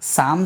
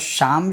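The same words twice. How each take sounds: First: The word begins with an 's' sound. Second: The word begins with an 'sh' sound. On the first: The speaker calls it wrong. "शाम, सिम, सुम नहीं है" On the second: The speaker calls it right. "यहाँ पर शाम, शिम, शुम है"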